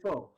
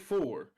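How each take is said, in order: First: The final R sound is dropped. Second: The final R sound is clearly pronounced. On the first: "I say four" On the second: "I do not say four"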